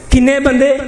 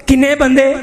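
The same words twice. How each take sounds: The two takes are said the same way.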